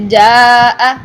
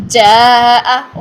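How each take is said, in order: First: "جاء" long-drawn with a hard voiced j; correct jeem. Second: "جاء" long-drawn, its j turned into ch; wrong ch sound. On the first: Tajweed teacher modelling the correct word, hard jeem. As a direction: hold "جاء" long after a firm j. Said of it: "یہ sound ٹھیک ہے". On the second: Tajweed teacher showing the wrong version, ch for jeem. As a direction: start "جاء" with ch and stretch it. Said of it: "چے والی sound میں کرتے ہیں". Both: Shown as a demonstration.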